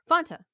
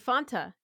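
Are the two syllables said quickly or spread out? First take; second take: quickly; spread out. First: The two syllables are said quickly together. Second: The two syllables are said slowly, spread apart.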